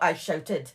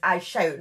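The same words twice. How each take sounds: First: "I shouted" with the -ed ending made clear, dropping lower; past-tense contrast. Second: "I shout" set out plainly in the present tense; present-tense contrast. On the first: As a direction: point up "shouted" as the word not used. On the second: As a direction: point up "shout" as the word he actually used. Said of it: "not "I shouted". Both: Shown as a demonstration.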